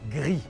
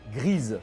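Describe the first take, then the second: First: The word ends without an s sound. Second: The word ends with an audible s sound. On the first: The speaker calls it wrong. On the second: The speaker calls it right.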